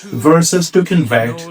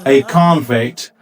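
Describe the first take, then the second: First: The stress is on the second syllable. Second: The stress is on the first syllable.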